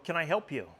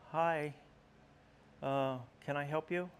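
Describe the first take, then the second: First: It is said in a stern, confident tone. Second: It is said in a timid, hesitant tone.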